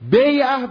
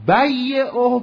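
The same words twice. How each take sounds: First: The y sound is short and single. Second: The y sound is lengthened and doubled. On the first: It means his sale. "بیعه بگیم میشه مخفف" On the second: It means his seller. "بیعه بگیم میشه مشدد"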